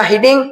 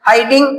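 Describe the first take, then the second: First: "hiding" said as HID-ing; first syllable of "hiding" as in "hid"; short-i mispronunciation. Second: First syllable of "hiding" rhymes with "eye"; long-i pronunciation. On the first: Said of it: "सब अलग अलग use करेंगे". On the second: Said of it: "इसका pronunciation भी सीखेंगे". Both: Shown as a demonstration.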